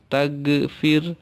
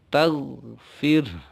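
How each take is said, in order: First: The consonant is a hard g stop. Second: The consonant is a guttural gh fricative. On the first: The speaker calls it wrong. "jangan pakai ge, jangan tagfir" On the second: The speaker calls it right. "bukan huruf G tapi ghain"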